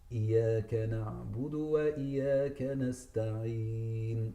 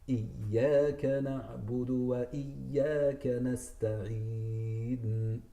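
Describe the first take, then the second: First: The ya sound is light, not emphasized. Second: The ya sound is emphasized and held. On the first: The speaker calls it wrong. "Don't say" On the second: The speaker calls it right. "Emphasize on the ya"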